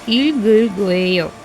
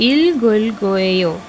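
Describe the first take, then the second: Both takes have the same delivery.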